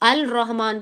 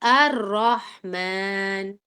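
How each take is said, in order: First: The L is clearly pronounced before the R. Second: The L merges into the following R sound. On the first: "अल रहमान पढ़ना चाहिए ना" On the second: "इसके अंदर हमने रॉ क्यों पढ़ा, लाम क्यों छोड़ दिया"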